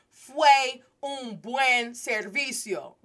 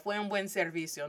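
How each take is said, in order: First: Slow, louder, word-by-word Spanish practice; careful rehearsal. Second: Said in the usual way. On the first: Retold or imitated. Student rehearsing her sentence for the priest, slow and deliberate. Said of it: "I know I wanna say". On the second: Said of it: "no sweat".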